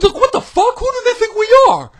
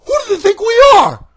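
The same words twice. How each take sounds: First: Outraged yell, much higher and louder; angry shout. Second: Shouting in outrage, much higher and louder; angry shout. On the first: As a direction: bellow it in disbelief. Repeated rant. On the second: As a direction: yell the question at them. Ranting at WWE booking. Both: Real, not acted.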